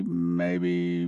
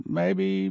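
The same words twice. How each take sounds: First: Maybe dropped low and soft, teasing; a low, hushed maybe; mock doubt. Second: Maybe pitched up high, teasing; a high, unsure maybe; mock doubt. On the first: Preacher teasing doubters, low hushed maybe. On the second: Preacher teasing doubters, high mock maybe. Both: Mock wavering over hidden swirl.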